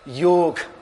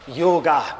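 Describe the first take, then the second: First: The word ends without a final vowel. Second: The word ends in a long vowel. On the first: This is how Hindi speakers say it. "get rid of the A and just pronounce it as yog" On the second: This is how the West says it. "they thought that the A in the end is long"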